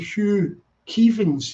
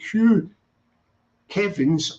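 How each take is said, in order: First: Kevins has a long 'ee' vowel. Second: Kevins has a short 'e' vowel.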